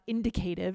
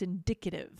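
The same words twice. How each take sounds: First: The stress is on the first syllable. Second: The stress is on the second syllable. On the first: The speaker calls it wrong. "not indicative" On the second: The speaker calls it right. "it's indicative. ... the stress goes on the D"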